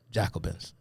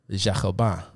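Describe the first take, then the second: First: Said in the usual way. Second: French pronunciation. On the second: Shown as a demonstration. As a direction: try "Jacobins" in French. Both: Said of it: "I tried to say it in French".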